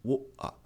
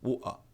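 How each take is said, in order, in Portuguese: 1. O T vira uma parada na garganta. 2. O T vira uma parada na garganta.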